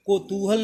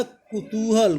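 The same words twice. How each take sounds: First: कौतूहल said ko-too-hal; wrong first vowel. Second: कुतूहल said ku-too-hal; correct first vowel. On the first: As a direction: open कौतूहल with an "o" sound. (गलत उच्चारण, कौतूहल को "कोतूहल" बोलें) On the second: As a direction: open कुतूहल with a short "u". (सही उच्चारण, कुतूहल में "कु" से शुरू) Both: Shown as a demonstration. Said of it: "कौतूहल नहीं होता".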